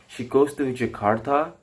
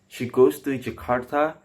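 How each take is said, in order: The two takes are said the same way.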